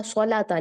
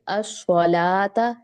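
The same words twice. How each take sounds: First: सलाता with ला clipped to one beat; सलाता, short middle vowel shown as wrong. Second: असलाता slowly, ला held two beats; slow recited असलाता with long ला; lengthened vowel. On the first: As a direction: rush through the ला of सलाता as a mistake. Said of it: "सलाता नहीं पढ़ेंगे". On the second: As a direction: draw out the ला in असलाता. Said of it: "ये भी लंबा होगा". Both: Shown as a demonstration.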